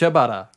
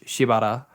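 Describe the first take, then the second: First: The name is said quickly with syllables blurred. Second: The name is said slowly with each syllable clear. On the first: The name is rushed through in the sentence. The speaker calls it wrong. "because they're just rushing through the sentence" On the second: The name is pronounced properly. The speaker calls it right. "it should be Shibata"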